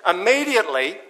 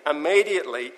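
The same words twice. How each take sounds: First: Immediately said high and loud with a rise; emphatic. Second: Said in the usual way. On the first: Shown as a demonstration. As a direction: ring out immediately.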